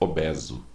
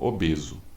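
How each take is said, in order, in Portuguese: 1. A vogal E é aberta. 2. A vogal E é fechada. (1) "com E aberto" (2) "Todos falam obeso"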